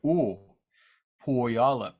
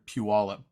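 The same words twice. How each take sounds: First: "Puyallup" opened with a dropped-jaw "oo", near "oh"; grandpa's pronunciation. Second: Said in the usual way. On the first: Retold or imitated. Teacher quoting grandpa's way, "Puyallup" with Southern oh-like vowel. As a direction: say "Puyallup" as "oh-YAH-lup", first vowel rounded. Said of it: "The way my grandpa said".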